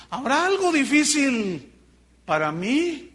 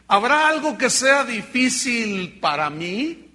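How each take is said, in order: First: Algo raised high and slow; stress on algo. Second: Drawn out and louder, each word weighed; slow, heavy question with a stretched habrá; slow emphatic question. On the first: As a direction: lift algo high and drag the question. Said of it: "A ver". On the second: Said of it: "Fíjate lo que dice Dios". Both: Shown as a demonstration.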